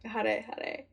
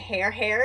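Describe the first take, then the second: First: Each word does not sound like English 'hair'. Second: Each word sounds like the English word 'hair'. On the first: The speaker calls it right. "And I thought hare hare" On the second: The speaker calls it wrong. "I pronounced it hair hair"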